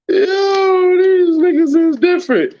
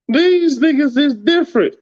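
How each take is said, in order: First: Higher, breaking into real laughter mid-line; can barely get it out for laughing; laughing through it. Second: Said in the usual way. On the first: Real, not acted. Cracking up at the haters.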